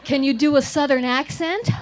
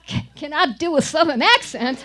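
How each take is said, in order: First: Said in the usual way. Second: Loud, hammed-up Southern accent. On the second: Child showing the director her part, hammed-up Southern accent.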